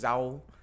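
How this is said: The word begins with a z sound. "In the north was with a Z"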